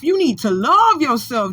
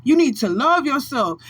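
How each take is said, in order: First: "love" pressed down with a falling tune; stress on love. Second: "need" pressed down with a falling tune; stress on need. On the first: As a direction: lean hard on "love". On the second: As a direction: lean hard on "need". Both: Shown as a demonstration.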